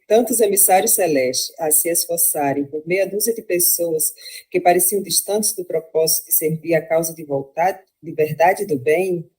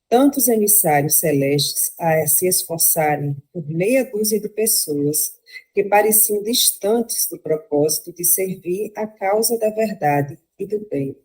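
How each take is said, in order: First: It is read as a question, rising. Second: It is read as a statement, falling.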